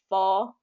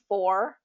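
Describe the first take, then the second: First: The R sound is reduced to a vowel. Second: The R sound is clearly pronounced. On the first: The speaker calls it wrong. "the R is being kind of reduced to a vowel" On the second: The speaker calls it right. "instead of for"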